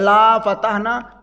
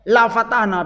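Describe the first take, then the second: First: The vowel in 'la' is drawn out long. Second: The vowel in 'la' is held short. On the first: We will not open it. The speaker calls it wrong. "Kalau dibaca panjang" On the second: We will surely open it. The speaker calls it right.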